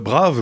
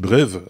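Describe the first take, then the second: First: The vowel is an open 'ah' sound. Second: The vowel is an 'eh' sound. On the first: "comme euh, brave" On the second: "mais ça se dit brève dans ce cas-là"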